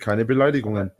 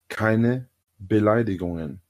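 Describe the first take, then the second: First: It is said at normal speed. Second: It is said slowly.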